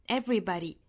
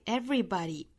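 Both takes have the same delivery.

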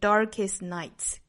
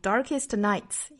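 First: The t at the end of darkest is dropped. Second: The t at the end of darkest is pronounced. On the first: The speaker calls it right. "应该是 darkest nights" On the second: The speaker calls it wrong. "那 darkest 尾部 t 省掉，不要读成 darkest nights"

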